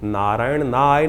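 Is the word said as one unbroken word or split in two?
split. The word is broken into two separate parts. The speaker calls it wrong.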